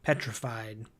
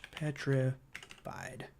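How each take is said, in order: First: Said in the usual way. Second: Slow, quiet PETRIFIED with a gap inside; drawn-out word. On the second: Real, not acted. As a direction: spell it out slowly as if writing. Repeats word while writing it down.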